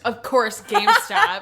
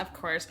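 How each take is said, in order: First: Louder, higher scornful GameStop; exasperated emphasis. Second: Said in the usual way. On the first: Shown as a demonstration. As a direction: spit out GameStop in disgust.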